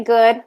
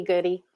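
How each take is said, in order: First: "good", ending on the d with no vowel after it; one-syllable pronunciation. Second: "goody" in two syllables, good plus ee; two-syllable pronunciation. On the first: Guest telling host her surname, "good" said as one syllable. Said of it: "We say good, but it can also be". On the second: Guest offering host the other surname reading, "goody" ending in ee. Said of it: "it can also be goody". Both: Shown as a demonstration.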